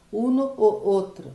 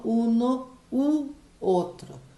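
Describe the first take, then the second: First: "Uno, o, outro" with a loud O between the words; repeated O sound. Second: "uno, u, outro" slowly, with oo before outro; O changed to U. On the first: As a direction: let the O of "o" collide with "outro". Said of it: "viram que repetiu o som". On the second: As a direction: draw out a higher-pitched oo in "u" before "outro". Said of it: "Troco de o para u". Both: Shown as a demonstration.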